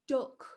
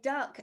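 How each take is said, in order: First: It is said in a Sheffield accent. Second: It is said in a standard accent.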